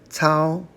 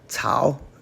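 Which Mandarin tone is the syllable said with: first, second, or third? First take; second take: first; third. First: The syllable stays high and level. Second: The syllable dips low and then rises. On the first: It means to operate or to grasp. "to operate. First tone" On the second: It means grass. "third tone, grass"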